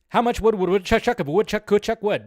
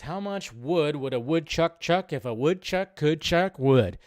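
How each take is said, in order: First: It is said very fast. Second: It is said at a normal pace.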